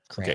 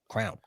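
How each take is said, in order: First: It is said with two syllables, cray-on. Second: It is said as one syllable, like crown. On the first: The speaker calls it right. "so I say crayon" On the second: The speaker calls it wrong. "she says it way wrong"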